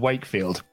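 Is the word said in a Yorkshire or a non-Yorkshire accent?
non-Yorkshire. It is said in the speaker's own non-Yorkshire accent. It does not sound like a name. "if you were to say in my accent"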